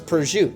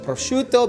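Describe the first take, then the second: First: The final vowel is dropped. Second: The final vowel is pronounced.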